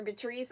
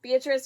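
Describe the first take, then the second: First: Beatrice, second of two tentative readings; alternative pronunciation attempt. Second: Beatrice, first of two tentative readings; first pronunciation attempt. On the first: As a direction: try Beatrice the other way, unsure. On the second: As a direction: try Beatrice one way, unsure. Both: Shown as a demonstration. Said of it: "mispronouncing her last name".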